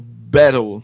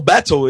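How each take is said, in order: First: It is said in a non-British, American-style accent. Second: It is said in a British accent.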